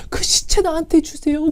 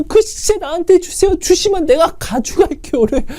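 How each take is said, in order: First: Higher, softer plea for "그 시체 나한테 주세요"; mild tearful plea. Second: "그 시체 나한테 주세요" pushed much higher, near tears; the plea rising into a half sob; mild crying plea. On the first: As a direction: beg softly, a hint of tears. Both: Retold or imitated. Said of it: "울면서 이렇게 고백하겠냐고요".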